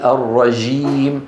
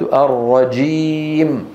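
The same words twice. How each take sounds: First: The j sound is soft and drawn out. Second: The j sound is a short, explosive stop. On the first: The speaker calls it wrong. "لا يأتي بصفة الشدة" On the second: The speaker calls it right. "انفجاري"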